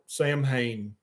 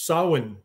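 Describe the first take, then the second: First: The middle is said with m and h sounds. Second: The middle is said with a w sound. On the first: The speaker calls it wrong. "I called it Samhain. I was an idiot American" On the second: The speaker calls it right. "I pronounced Sawin properly"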